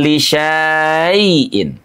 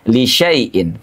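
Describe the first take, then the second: First: The vowel after sy is drawn out long. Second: The vowel after sy is kept short. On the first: The speaker calls it wrong. "Tidak dibaca panjang, tidak li syai'in" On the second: The speaker calls it right. "tapi li syai'in"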